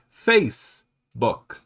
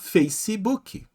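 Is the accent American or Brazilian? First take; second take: American; Brazilian. First: It ends cleanly on the final consonant. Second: An extra ee vowel follows the final consonant. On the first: "no inglês americano, eles vão dizer Facebook" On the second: "E nós vamos falar Facebook"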